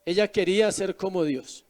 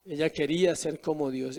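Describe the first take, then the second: First: Said in the usual way. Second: Said again, much softer and lower, pressing the point; soft, low emphatic repeat of "Ella quería ser como Dios". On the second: Shown as a demonstration. Preacher repeats the key line.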